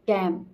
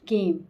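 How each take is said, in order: First: The vowel is a flat 'a' sound. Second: The vowel is a long 'ay' sound. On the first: The speaker calls it wrong. "कैम नहीं है" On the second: The speaker calls it right. "केम है"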